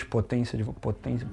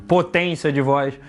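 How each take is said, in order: First: Much softer, dropped almost to nothing; quiet take. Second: Full-power take. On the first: Host showing his cohost a low-power take of potência. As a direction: pull the power right down on potência. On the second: Host showing his cohost a full-power take of the phrase. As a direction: give potência de voz full power, unhurried. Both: Shown as a demonstration.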